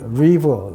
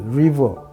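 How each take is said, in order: First: It starts with an English r sound. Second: The same.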